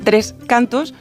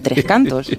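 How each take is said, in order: First: Each word carries its own stress. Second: The name carries a single stress. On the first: The speaker calls it wrong. "La Renfe, sin embargo, dice 3 cantos, como cuando yo digo 4 copas" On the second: The speaker calls it right. "al pronunciar el nombre compuesto solo damos un golpe de acento"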